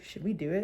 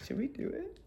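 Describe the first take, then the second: First: Tentative. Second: High, very soft conspiratorial squeak. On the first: Mother sounding out her daughter, tentative and quiet. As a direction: float the question quietly. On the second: Daughter egging her mother on, conspiratorial and hushed. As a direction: echo it back in a tiny high voice. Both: Retold or imitated.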